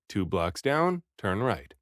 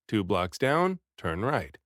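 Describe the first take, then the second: No difference in how they are said.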